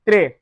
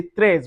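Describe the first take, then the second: First: Très with the S silent; correct très. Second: Très with a sounded final S; wrong très. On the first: Teacher giving the right très, S silent. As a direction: end très on the vowel. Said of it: "we say très". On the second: Teacher showing the mistake, très with an S. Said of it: "We don't say très". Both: Shown as a demonstration.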